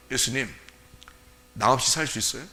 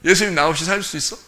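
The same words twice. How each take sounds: First: Soft, low, hesitant question; timid. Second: More assertive, direct question; confident. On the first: Believer timidly questioning Jesus, timid and soft. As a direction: ask meekly, not daring to push. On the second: Believer boldly challenging Jesus, confident. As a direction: ask it squarely, without shrinking. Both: Acted. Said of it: "그 정도 당당하지도 못해?".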